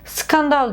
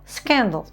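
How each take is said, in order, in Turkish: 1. Türkçe seslerle telaffuz ediliyor. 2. İngilizce seslerle telaffuz ediliyor. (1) "Skandal değil de" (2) "değil de scandal"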